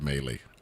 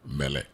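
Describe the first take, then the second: First: The stress is on the second syllable. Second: The stress is on the first syllable. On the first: The speaker calls it wrong. "not melee" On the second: The speaker calls it right. "Accent on the first syllable"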